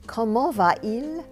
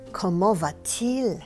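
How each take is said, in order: First: No t sound; the two vowels meet directly. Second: A t sound links the two vowels smoothly. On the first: The speaker calls it wrong. "C'est lourd sur la langue" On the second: The speaker calls it right. "ça sort de la bouche lisse comme un papillon"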